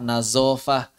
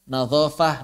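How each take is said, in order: First: The middle consonant is a 'z' sound. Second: The middle consonant is a voiced 'th' sound. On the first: The speaker calls it wrong. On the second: The speaker calls it right.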